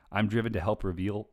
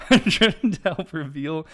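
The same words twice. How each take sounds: First: Said in the usual way. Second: Real tears breaking through, slower; choked up, laughing. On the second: Real, not acted. Rereading his intro while fighting tears. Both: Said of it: "I'm gonna cry".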